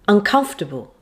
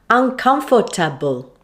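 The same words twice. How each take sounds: First: Only one syllable gets strong stress. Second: Every syllable gets equal strong stress. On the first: The speaker calls it right. "it should sound like this" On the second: The speaker calls it wrong. "you might end up stressing all the vowels"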